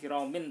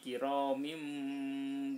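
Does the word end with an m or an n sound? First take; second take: n; m. First: The word ends with an n sound. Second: The word ends with an m sound. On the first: The speaker calls it wrong. "bukan kiramin" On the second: The speaker calls it right. "tapi kiramim bararah"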